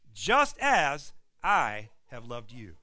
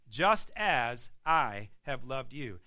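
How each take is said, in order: First: Every word slowed and weighted, JUST leaned on hardest; slow emphatic quote. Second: "just as I have loved you" again slow, JUST leaned on hardest; slow emphatic repeat. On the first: Preacher driving home Jesus' words to the congregation, slow and weighty. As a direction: lay "just as I have loved you" down slowly and firmly. Quoting Jesus' new standard. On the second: Preacher repeating the new standard to the congregation, slow and firm. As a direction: restate the words slowly, pressing each one. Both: Acted.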